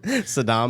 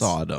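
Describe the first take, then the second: First: The name is said like the word Saddam. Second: The name is said in the usual Sodom way. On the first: The speaker calls it wrong. "I know someone who pronounces Sodom as Saddam" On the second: The speaker calls it right. "no, it's Sodom"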